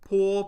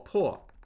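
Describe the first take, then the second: First: The pitch stays high and level. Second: The pitch falls sharply from high.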